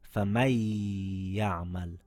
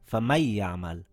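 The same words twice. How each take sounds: First: The noon merges into a ya held two counts. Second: The noon is pronounced clearly before the ya. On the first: The speaker calls it right. "but we said" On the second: The speaker calls it wrong. "We could have just said"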